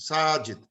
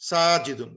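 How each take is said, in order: First: Said in the usual way. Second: সাজিদুন said with the full -un ending drawn out; with the nunation ending. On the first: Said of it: "না হলে থাকে না". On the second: Shown as a demonstration. Teacher showing students the full form সাজিদুন with its ending. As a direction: give সাজিদুন its tanween tail, the -un clearly voiced. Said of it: "কিন্তু একটা টান দিতে হবে".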